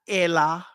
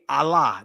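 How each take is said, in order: First: The first vowel is a mid 'eh' sound. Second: The first vowel is an open 'ah' sound. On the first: The speaker calls it wrong. "not Elah" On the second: The speaker calls it right. "it makes an ah sound. So it would be Allah"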